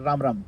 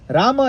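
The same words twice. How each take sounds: First: "Ram" as one syllable, closed on m; final vowel dropped. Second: "Rama" high and loud, final ma sounded; two full syllables. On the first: Teacher showing the mistake to avoid, vowel dropped. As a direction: say each "Ram" without the ma ending. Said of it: "not Ram Ram". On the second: Teacher showing the correct chant, two clear syllables. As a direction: give "Rama" both syllables, ra-ma. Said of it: "Rama is two syllables". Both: Shown as a demonstration.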